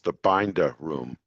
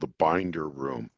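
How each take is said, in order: First: It is said in a Boston accent. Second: It is said in a general, non-Boston accent.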